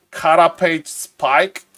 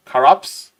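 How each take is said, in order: First: "Carapace spike?" read slowly with a questioning rise, the words in the wrong order; a gamer stumbling over a spell name before he has looked it up; unsure first try. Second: "Carapace?" clipped to two syllables, "kaps", with a rising tune; broken accent. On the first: First try, reading it slowly and unsure. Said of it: "I can't pronounce this". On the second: Streamer testing his broken accent, a questioning try. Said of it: "the accent is, um, broken enough". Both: Shown as a demonstration.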